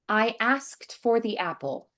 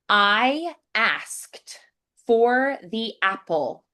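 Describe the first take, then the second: First: The consonants are softened and words flow together. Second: Each consonant is sharply and separately articulated. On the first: "getting through those a little bit quicker and just muting those" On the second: "We're going to be slightly over articulated first"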